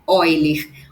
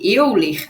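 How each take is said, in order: First: The name begins with an 'oy' sound. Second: The name is read as it is spelled. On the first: The speaker calls it right. "a pronúncia correta é Euler" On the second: The speaker calls it wrong. "escrever Euler"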